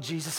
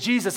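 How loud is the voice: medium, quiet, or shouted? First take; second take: quiet; medium. First: The name is said quietly and softly. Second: The name is said at a moderate volume. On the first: The cry was timid and restrained. "I don't believe that this was a quiet" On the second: The cry was only moderately urgent. "I don't believe it was like a medium"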